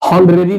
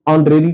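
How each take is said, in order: First: The word begins with an audible h sound. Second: The word begins directly with a vowel sound. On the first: The speaker calls it wrong. "ऑनरेरी नहीं कहते हैं" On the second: The speaker calls it right. "ऑनरेरी कहते हैं"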